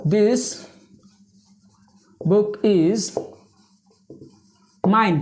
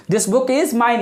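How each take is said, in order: First: Slow, isolated words with long gaps; word-by-word dictation; dictating while writing. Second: Said in the usual way. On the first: Real, not acted. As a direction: pause as you write each word.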